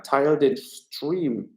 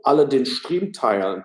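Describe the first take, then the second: First: Very slow, each word spaced out; slow emphatic appeal. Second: Said in the usual way. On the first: Shown as a demonstration. Streamer urging viewers to share, slow and deliberate. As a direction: drag it out to press viewers.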